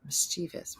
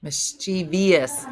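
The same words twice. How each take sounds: First: Softer three-syllable Mischievous with a questioning rise; unsure mischievous. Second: Slow, spaced-out four syllables on Mischievous; mispronounced mischievous. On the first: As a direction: say Mischievous as "mis-CHEE-vus". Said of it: "I said it wrong". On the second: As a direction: say Mischievous as "mis-CHEE-vee-us". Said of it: "Mischievous is wrong". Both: Shown as a demonstration.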